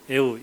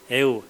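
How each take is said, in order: The two takes are said the same way.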